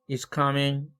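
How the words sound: The pitch rises and stays up at the end. It asks a question. "의문문이죠. 이삼삼 이겁니다"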